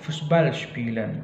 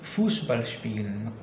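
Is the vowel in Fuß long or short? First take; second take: short; long. First: The u vowel in Fuß is short. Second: The u vowel in Fuß is long. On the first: The speaker calls it wrong. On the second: The speaker calls it right. "tapi Fußball spielen karena dia panjang"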